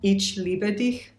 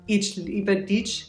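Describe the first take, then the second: First: The ch is a soft hissing German sound. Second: The ch is a hard English ch sound. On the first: "now I just switched it" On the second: "like U S or American style English um, C H sound"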